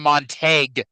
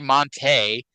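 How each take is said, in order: First: The name is said with a hard g sound. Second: The name is said without any g sound. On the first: The speaker calls it right. "pronouncing the G" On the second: The speaker calls it wrong. "I always hear him say Monte"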